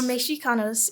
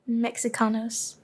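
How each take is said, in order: First: The x is pronounced as a sh sound. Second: The x is pronounced as a ks sound. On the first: "if we're um way back in time" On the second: "you pronounced the X. Your mistake"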